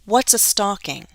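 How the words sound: The voice falls at the end. The question is asked for the first time. The speaker calls it right. "You should hear my voice falling at the end of each sentence"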